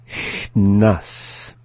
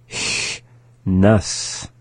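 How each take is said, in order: The two takes are said the same way.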